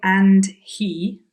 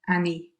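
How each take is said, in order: First: Both words are said fully and separately. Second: The D and H drop, words run together. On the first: "nice and carefully" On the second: "drops the H sound on he, he drops the D sound on and, and then he links the two together"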